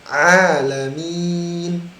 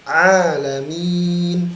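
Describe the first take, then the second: No difference in how they are said.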